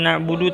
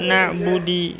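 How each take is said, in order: First: The word ends with an u vowel. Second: The word ends with an i vowel. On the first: The speaker calls it right. "na'budu harus dibaca na'budu" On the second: The speaker calls it wrong. "tidak boleh"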